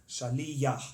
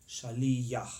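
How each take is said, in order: No difference in how they are said.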